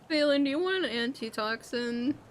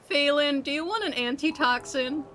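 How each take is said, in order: First: The offer sounds grudging and unenthusiastic. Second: The offer sounds friendly and willing. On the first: The offer is not really meant generously. The speaker calls it wrong. "don't sound so, uh, you know, unanimous about giving him one" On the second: The offer is sincerely meant. The speaker calls it right. "That's a little better"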